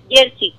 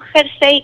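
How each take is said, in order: First: It starts with a y sound, ending in i. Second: It starts with a throaty h sound. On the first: This is the local way of saying it. "sino jersey, que es nuestra manera de pronunciarla" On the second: This is the standard form, read as written. "No jersey con J, escrito tal cual"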